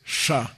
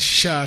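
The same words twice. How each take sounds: First: The sh sound is made with tongue curled back. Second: The sh sound is made with a flat tongue.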